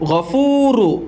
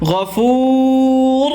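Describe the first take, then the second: First: The word ends with a short "u" vowel. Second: The word ends on a bare "r" sound. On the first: The reading continues without stopping. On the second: The reader stops at this word.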